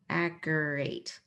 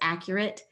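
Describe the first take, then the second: First: The last syllable has a long A, like 'eight'. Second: The last syllable has a short, weak vowel. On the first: The speaker calls it wrong. "This could be a long A sound" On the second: The speaker calls it right. "that A E actually represents a short E sound in this word"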